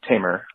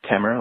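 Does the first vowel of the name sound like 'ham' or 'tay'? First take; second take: tay; ham. First: The first vowel sounds like the one in 'tay'. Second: The first vowel sounds like the one in 'ham'. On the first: "like Lion Tamer" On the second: "like hammer with a T"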